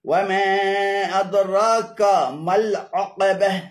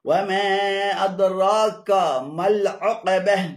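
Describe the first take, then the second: The two takes are said the same way.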